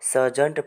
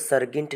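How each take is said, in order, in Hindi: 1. बीच का व्यंजन soft j ध्वनि है। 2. बीच का व्यंजन hard g ध्वनि है। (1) "इसको सर्जेंट पढ़ा जाएगा" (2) "इसको सर्गिंट नहीं पढ़ा जाएगा"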